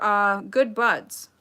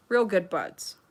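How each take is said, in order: First: "good buds" stretched out slowly; slow knowing drawl. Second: "Real" leaned on, sly and knowing; stress on real. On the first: Host to chat about Lilly, slow sly drawl. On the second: Host to chat, stressing "Real" with a sly hint. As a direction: punch "Real" in "Real good buds" with a wink. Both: Real, not acted.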